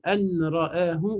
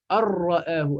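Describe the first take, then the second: First: The n is pronounced fully before the r. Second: The n is merged into a doubled r.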